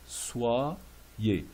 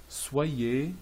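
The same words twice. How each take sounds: First: "soyez" split slowly as swa, yé; pronunciation breakdown. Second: Said in the usual way. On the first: Shown as a demonstration. Teacher explaining the Y, word split in two. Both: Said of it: "Le Y ici est comme deux I".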